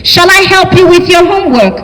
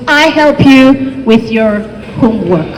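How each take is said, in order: First: "Shall I" said a little higher, as the British form. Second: Said in the usual way. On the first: Shown as a demonstration. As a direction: offer "Shall I help you" politely, set against "Should". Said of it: "British shall form".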